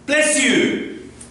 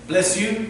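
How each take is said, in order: First: It is said with strong, emphatic energy. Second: It is said in a flat, plain way.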